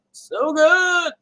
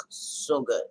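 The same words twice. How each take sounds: First: High, loud, drawn-out rave; real over-the-top foodie enthusiasm; excited raving. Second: Said in the usual way. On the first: Real, not acted. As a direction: belt it out with delight, pitched way up. Repeats it, raving over pies.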